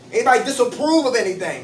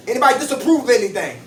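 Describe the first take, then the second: First: Said in the usual way. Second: Rattled off fast; quick question. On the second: Real, not acted. Repeats the question to the group.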